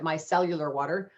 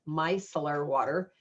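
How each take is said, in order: First: The first word has an extra fourth syllable. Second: The first word has only three syllables. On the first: The speaker calls it wrong. "I was calling it micellular water" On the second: The speaker calls it right. "So it's micellar water"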